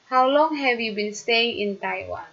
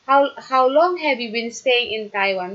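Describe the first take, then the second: First: The pitch falls at the end. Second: The pitch rises at the end. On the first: The speaker calls it right. "Jadi dia itu falling intonation" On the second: The speaker calls it wrong. "No, in Taiwan. No, no"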